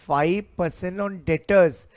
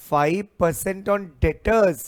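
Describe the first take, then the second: No difference in how they are said.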